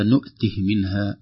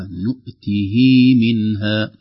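First: "نؤته" with a short "hi" straight into "منها"; "نؤته منها" joined, ه vowel not stretched; no vowel lengthening. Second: "نؤته" with the final "hii" drawn out; full vowel lengthening. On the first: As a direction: cut the final i of "نؤته" short. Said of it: "بدون يعني، آه، إشباع الحركة". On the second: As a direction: stretch the ه vowel of "نؤته" before "منها". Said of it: "نقرأ بإشباع الحركة". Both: Shown as a demonstration.

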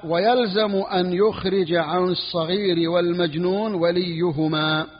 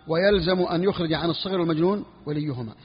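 First: Reads the legal text slowly, word by word; slow text reading. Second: Said in the usual way. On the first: Shown as a demonstration. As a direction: spell out each word of the book slowly for the students. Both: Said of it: "قال".

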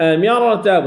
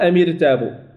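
First: أميرتاب with a thick, full r; correct heavy ra. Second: أميرتاب with a light, thinned r; thin the ra after the i in أميرتاب; wrong thin ra. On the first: Teacher giving the correct recitation, أميرتاب with heavy ra. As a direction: thicken the ra in أميرتاب despite the i before it. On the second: Teacher showing what not to say, أميرتاب with thin ra. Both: Shown as a demonstration. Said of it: "لا نقول أميرتاب".

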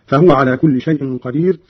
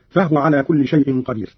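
First: Said in the usual way. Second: فهو said "fahwa", no vowel on the h; فهو in two syllables, fah-wa; silent-vowel ha. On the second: Shown as a demonstration. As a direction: close the h in فهو straight into w. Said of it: "بإسكان الهاء في هذه الضمائر".

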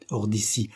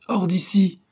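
First: Said in the usual way. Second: High, loud angry command; peremptory order. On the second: A narrator's reading. Employer ordering the chauffeur out, peremptory shout. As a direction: throw him out with a sharp shout. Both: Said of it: "intima sir Felton".

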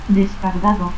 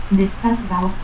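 First: Said in the usual way. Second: Descargao without its D; dropped D. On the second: Shown as a demonstration. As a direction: end in "-ao": Descargao. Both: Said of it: "pérdida de la D intervocal".

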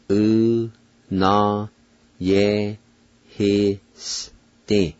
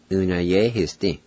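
First: "U, na, ye, hi, s, ti" in isolated, held syllables; syllable-by-syllable pronunciation. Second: Said in the usual way. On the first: Shown as a demonstration. Teacher pronounces Cherokee word for terror, "U, na, ye, hi, s, ti" slowly syllable by syllable. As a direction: sound out "U, na, ye, hi, s, ti" very slowly, pause after each. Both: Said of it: "now I'll pronounce them".

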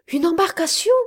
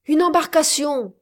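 First: High rising, louder echo; startled question. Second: Falling, higher, louder cry of discovery; exclamation. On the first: Miss Campbell echoes the captain, startled and rising. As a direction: repeat it in disbelief. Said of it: "répondit Miss Campbell". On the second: Captain spots the boat through his spyglass, exclaiming. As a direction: announce it as you spot it. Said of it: "s'écria-t-il". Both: A narrator's reading.

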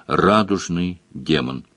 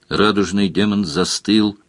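First: "радужный" slow and low, no feeling; "радужный демон" in a cold disembodied drone; emotionless demon voice. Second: Said in the usual way. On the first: A narrator's reading. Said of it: "где эмоций было не больше". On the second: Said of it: "narrator plain take".

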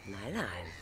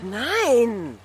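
First: Lower, softer settling no; quiet, calmer afterthought; soft repeat. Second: Loud, high outburst of no; shouted denial, pitch leaping up; sharp shout. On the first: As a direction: take it back down quietly. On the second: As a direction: burst out in protest. Sudden refusal in lovers' argument. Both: Acted.

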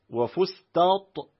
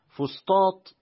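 First: "وفسطاط" with a light t replacing ط; ta for emphatic ta. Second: Said in the usual way. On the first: Shown as a demonstration. Reader lists a variant of the word, "وفسطاط" with ت for ط. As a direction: say "وفسطاط" with ت in place of the first ط. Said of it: "بالتاء بدل الطاء". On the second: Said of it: "فيه ست لغات".

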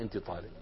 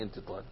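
First: Much softer and lower, أنت said quietly; giving voice to a mute man's sign; hushed voicing of a gesture. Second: Much softer and lower, أنت barely spoken; almost silent أنت طالب; voicing the mute man's sign; hushed voicing of a gesture. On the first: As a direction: murmur أنت طالب as the gesture's meaning. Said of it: "بيعمل له هيك، يعني". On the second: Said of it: "يعني".

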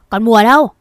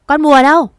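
First: Loud yell calling for Mùa. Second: Full shout, pitched much higher; louder, higher yell. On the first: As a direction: bellow her name across the factory. (mẹ Hải gào to gọi Mùa) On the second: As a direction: scream it again even harder. (mẹ Hải gào to hơn nữa, giọng cao vút) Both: Acted. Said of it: "mồm gào to".

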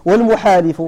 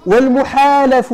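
First: والمحالف with an i in the last syllable, muhalif; kasra on والمحالف. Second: والمحالف with an a in the last syllable, muhalaf; fatha on والمحالف. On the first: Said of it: "والمحالف بالكسر". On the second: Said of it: "بالفتح هو الأعلى". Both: Shown as a demonstration.

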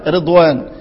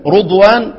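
First: The kasra reading of رضوان. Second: رضوان with a rounded "ru" start; the damma reading of رضوان. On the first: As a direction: say رضوان as "redwan". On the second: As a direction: say رضوان as "rudwan". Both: Shown as a demonstration. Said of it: "توجيه وكلام".

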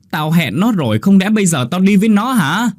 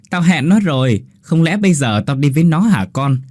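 First: The real mother's cry; wailing lament. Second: A light mimicry of the mother's wail; mocking the mother. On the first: Acted. Mother wails after Linh runs off. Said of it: "gào thét". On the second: Ghost boy mimics mother for Hiếu, teasing. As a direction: tease by parroting her lament. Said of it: "Đứa bé giả giọng của bà Lan".

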